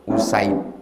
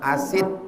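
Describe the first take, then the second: First: The name begins with an 'u' vowel. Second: The name begins with an 'a' vowel. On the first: The speaker calls it right. "Usaid bidhammil hamzah" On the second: The speaker calls it wrong. "kalau salah-salah dibaca orang asid"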